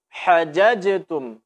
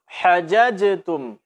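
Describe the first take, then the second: No difference in how they are said.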